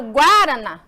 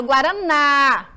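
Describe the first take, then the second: First: "guaraná" said as GUÁ-rana, questioning; mock-wrong "guaraná", stressed at the front; wrong stress, first syllable. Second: "guaraná" with a long final NÁ; correcting "guaraná", final ná drawn out firmly; stress on last syllable. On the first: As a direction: punch the first syllable of "guaraná", leaving the final ná weak. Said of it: "Não, eu falo guaraná". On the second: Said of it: "têm que pronunciar dessa forma". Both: Shown as a demonstration.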